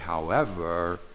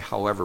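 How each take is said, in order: First: The word is said with marked, drawn-out emphasis. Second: The word is said in a plain, ordinary way. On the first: Wait a minute, don't go too fast. "that means, wait a minute, just hold your horses" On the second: It is just an ordinary contrast. "you can say however regularly"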